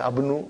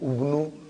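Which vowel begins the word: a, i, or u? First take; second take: a; u. First: The word begins with an a vowel. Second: The word begins with a u vowel. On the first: "I will never say Abnu" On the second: "I will never say Abnu, Ubnu"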